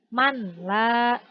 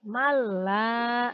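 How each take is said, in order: First: The n sound is pronounced clearly before l. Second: The n sound merges into a doubled l. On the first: The speaker calls it wrong. "tidak lagi" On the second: The speaker calls it right.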